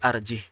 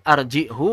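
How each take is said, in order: First: The word ends on a closed h sound. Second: The word ends in a u vowel. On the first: This is how the word is actually recited. "dibaca sukun" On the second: This is the word's underlying original form. "asal katanya arjihu"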